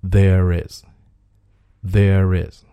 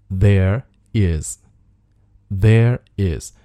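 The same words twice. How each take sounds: First: There is run together as "thair-riz"; linked pronunciation. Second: There is as two separate words; unlinked words. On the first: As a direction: link the R of there into is. (there is 连读，r 带出 is) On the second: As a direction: say there, brief gap, then is. (there is 两个词分开读，不连读) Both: Shown as a demonstration. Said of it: "那可以连读成".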